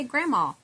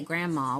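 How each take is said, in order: First: "grandma" said as gramma with no D, higher and louder with a laugh; exaggerated gramma. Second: "grandma" said as gramma, no D sound; grandma without the D. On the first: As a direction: play up the dropped D in "grandma". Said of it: "We say grandma". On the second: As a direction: drop the D in "grandma". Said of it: "because we say grandma". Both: Shown as a demonstration.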